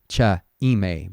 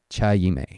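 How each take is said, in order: First: The two words are said without a y sound. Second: A y sound links the two words together. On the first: The speaker calls it wrong. "So not cha ime" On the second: The speaker calls it right. "but cha ime"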